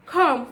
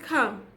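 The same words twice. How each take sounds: First: "come" drawn out with an o vowel, "kom"; non-British "come". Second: "come" with a short uh, "kum"; British "come". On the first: Teacher contrasts the flawed word with British, "come" as "kom". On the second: Teacher contrasts British word with the flawed one, "come" as "kum". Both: Shown as a demonstration. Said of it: "Come, not come".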